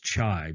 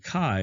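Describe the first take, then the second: First: The word starts with a ch sound. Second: The word starts with a k sound. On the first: The speaker calls it wrong. "but that's not correct" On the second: The speaker calls it right. "It's not a ch sound, it's a k sound"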